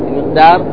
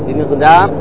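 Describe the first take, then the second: Both takes have the same delivery.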